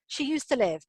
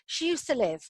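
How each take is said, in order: First: The word 'to' is shrunk and weak. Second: The same.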